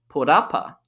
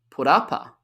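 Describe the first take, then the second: The two takes are said the same way.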